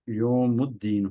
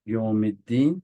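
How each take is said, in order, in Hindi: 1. yaum के बाद का स्वर u की आवाज़ है। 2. yaum के बाद का स्वर i की आवाज़ है। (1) "असल में क्या होना था? यो योमुद्दीन होना था ये लफ्ज" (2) "तो यहाँ पर जेर है तो यहाँ पर जेर आएगा"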